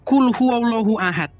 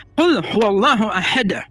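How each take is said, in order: First: Said in the usual way. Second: "Qul huwallahu ahad" slow, with heavy Arabic articulation and a bounced final d; teacher's exaggerated tajwid on "ahad"; corrected Arabic pronunciation. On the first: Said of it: "bacanya bukan". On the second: Shown as a demonstration. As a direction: stretch "Qul huwallahu" and release the d of "ahad" hard. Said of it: "Harus ahad gitu".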